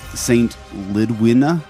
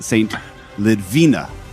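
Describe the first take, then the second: First: The name is said with a W sound. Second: The name is said with a V sound. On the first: This is the speaker's own first guess. "I would have pronounced this Saint Lidwina" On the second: Someone else online said it this way. "somebody pronounced it Saint Lidvina"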